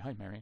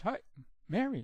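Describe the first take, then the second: First: The voice is pitched low. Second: The voice is pitched high. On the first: "if it's a low pitch" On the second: "if it's a high pitch"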